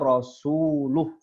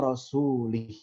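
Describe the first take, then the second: First: The vowel after the l is u. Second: The vowel after the l is i. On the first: God and the messenger both disown the idolaters. The speaker calls it right. "Tertulis dengan dom dhammah. ... Itu yang benar" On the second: God disowns the idolaters and also the messenger. The speaker calls it wrong. "dengan mengkasrohkan huruf lam"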